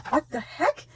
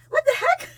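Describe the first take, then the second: First: Higher, softer amazed question; gasp, then ask it in disbelief; astonished, held back; stunned disbelief. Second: Very high squeak, breaking into laughter; overwhelmed high-pitched question; squealed disbelief. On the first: First stunned reaction to gift. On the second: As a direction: squeal it, helpless with amazement. Repeats, more overwhelmed. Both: Real, not acted.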